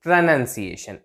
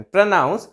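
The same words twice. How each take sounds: First: Falling प्रोनंसिएशन with 'nun'; contrast, noun form. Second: प्रोनाउंस with 'noun', rising; contrast, verb form. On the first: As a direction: model प्रोनंसिएशन as pruh-NUN-siation. ('नन' के साथ उतरता सुर) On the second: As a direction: lift the end of pruh-NOUNS in प्रोनाउंस. ('नाउंस' पर चढ़ता सुर) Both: Shown as a demonstration. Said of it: "इसमें difference हो गया".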